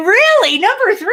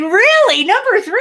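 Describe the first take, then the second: First: It sounds indignant that it ranks so low. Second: It sounds indignant that it ranks so low.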